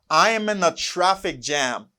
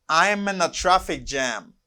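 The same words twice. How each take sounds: The two takes are said the same way.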